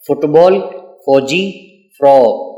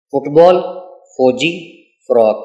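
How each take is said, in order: First: Loud for repeating. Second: Said in the usual way. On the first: Shown as a demonstration. Teacher leading children in repeating words, calling them out a bit louder. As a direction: say فٹ بال، فوجی، فراق a bit louder for the class to repeat. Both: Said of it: "میرے ساتھ اونچی آواز سے ذرا دہرائیں".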